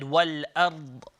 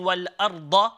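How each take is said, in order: First: The word ends on a held consonant. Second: The word ends with a short vowel. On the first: The reciter stops on this word. "I changed the fatha into a sakina" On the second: The recitation continues past this word. "instead of saying wal arda"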